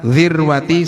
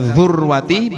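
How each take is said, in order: First: The first vowel is an 'i' sound. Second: The first vowel is a 'u' sound. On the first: "boleh dibaca dzirwati" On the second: "boleh dibaca dzurwati"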